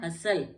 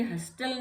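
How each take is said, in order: First: हसल with S straight into L; no T at all in हसल; silent T. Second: हस्टल with a clear T after S; wrongly sounded T. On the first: Teacher gives the correct word, हसल with silent T. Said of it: "टी silent हो गया इसमें". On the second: Teacher shows the wrong reading, हस्टल with T. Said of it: "ये हस्टल नहीं होगा". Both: Shown as a demonstration.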